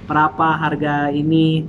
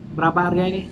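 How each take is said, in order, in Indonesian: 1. Pertanyaan itu diucapkan lambat dan terbata-bata. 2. Pertanyaan itu diucapkan cepat dan lancar. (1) "saya masih belum lancar" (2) "tapi cepat ya, lebih bagus ya"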